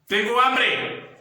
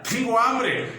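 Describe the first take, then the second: First: It sounds angry and irritated. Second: It sounds happy and cheerful.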